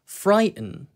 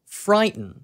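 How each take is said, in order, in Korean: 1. t 소리를 삼킨 미국식 억양이에요. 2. t 소리를 삼킨 미국식 억양이에요.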